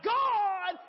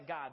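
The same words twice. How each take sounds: First: It is said very loudly and excitedly. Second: It is said in a plain, normal voice.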